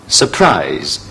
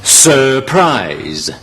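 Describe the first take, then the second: First: Surprise much lower, weak su; teacher corrects to surprise; correct pronunciation. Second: Surprise with a full sur, slow; wrong pronunciation. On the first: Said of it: "應該係". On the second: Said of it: "都係錯嘅". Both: Shown as a demonstration.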